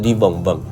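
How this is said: The repeated syllable starts with a b sound. This is what the speaker actually meant. "实际上他他要讲的是你蹦蹦"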